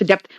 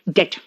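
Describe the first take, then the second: First: A b or p sound is heard before the t. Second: No b or p sound is heard before the t. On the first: The speaker calls it wrong. "हम लोग बोलते हैं डेप्थ डेप्थ, बेटा डेप्थ नहीं है" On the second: The speaker calls it right. "बी यहां पे silent है"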